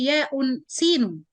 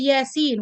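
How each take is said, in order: First: The letter names are said with a glottal stop. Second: The letter names are said without a glottal stop. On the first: The speaker calls it wrong. "we don't say Ya'un Sinun" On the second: The speaker calls it right. "So when we say Yasin"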